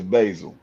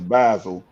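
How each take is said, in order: First: The name is said the American way. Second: The name is said the English way.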